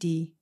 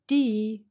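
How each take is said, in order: First: The word is said on a low level tone. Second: The tone falls from high to mid. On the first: It means neck. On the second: It means water. "high to medium"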